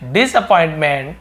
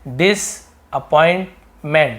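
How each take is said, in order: First: The word is said smoothly in one piece. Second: The word is broken into separate syllable chunks.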